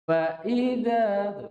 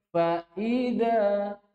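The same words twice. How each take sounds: Both takes have the same delivery.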